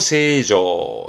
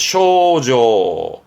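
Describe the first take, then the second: First: The word begins with the sound 'say'. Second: The word begins with the sound 'show'. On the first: "이때 발음은 세조" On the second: "가끔은 쇼로 갑니다"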